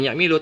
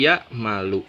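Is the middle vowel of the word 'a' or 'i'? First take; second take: i; a. First: The middle vowel is an 'i' sound. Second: The middle vowel is an 'a' sound. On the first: The speaker calls it wrong. "fi'il mudhari'nya bukan ya milu" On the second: The speaker calls it right. "tapi ya malu"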